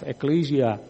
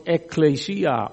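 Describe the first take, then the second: First: Ecclesia with the stress earlier, on "cle"; stress variant. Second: Ekklesia with the stress late, on "si"; stress variant. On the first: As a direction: say ecclesia stressing the second syllable. (klemtoon op "cle" in ecclesia) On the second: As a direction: say ekklesia stressing the next-to-last syllable. (klemtoon op "si" in ekklesia) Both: Shown as a demonstration. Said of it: "waar je de klemtoon wilt neerleggen".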